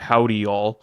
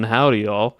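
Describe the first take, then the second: First: A lowered voice with no real regional accent. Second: A Southern accent with more pitch movement. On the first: "I just dropped my voice" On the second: "in like the Southern"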